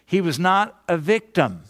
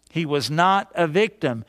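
First: Not hit hard, falling to a firm end; preacher's firm point on not; stress on not. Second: Not weighted, level and firm; repeated insistence on not; stress on not again. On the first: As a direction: lean into the word not. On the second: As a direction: press the word not once more. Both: Real, not acted. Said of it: "Let me just emphasize this".

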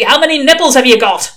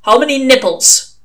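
First: Loud, exasperated demand; testy. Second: Loud, higher demand; brusque interrogation. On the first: A narrator's reading. Old witchfinder pressing a baffled recruit, testy shout. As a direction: repeat the question louder, out of patience. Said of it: "said the voice testily". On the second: Acted. Old witchfinder quizzing a recruit, brusque demand. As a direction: fire the question out loudly. Interrogator springs an odd question.

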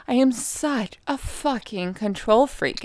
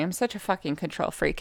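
First: Slow, higher-pitched "I am such a fucking control freak", each word drawn out; emphatic repeat. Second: Said in the usual way. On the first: Real, not acted. Emphatic repeat after scolding listeners.

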